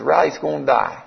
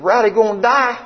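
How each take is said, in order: First: Even, matter-of-fact answer; retold doctor's level statement; sober confirmation. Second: High-pitched, incredulous question; retold shock, voice pitched right up. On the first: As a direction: confirm it gently and plainly. Vet's plain confirmation. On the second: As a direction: ask it in stunned disbelief.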